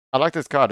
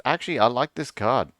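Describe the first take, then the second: First: "like" stressed, higher and louder; emphatic repeat. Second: Said in the usual way. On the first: Shown as a demonstration. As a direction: lean hard on "like", falling.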